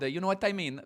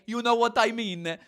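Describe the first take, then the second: First: It is said in the speaker's ordinary accent. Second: It is said in an imitated Italian accent.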